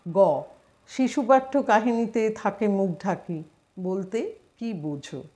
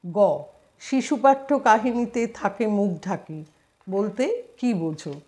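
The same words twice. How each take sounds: Both takes have the same delivery.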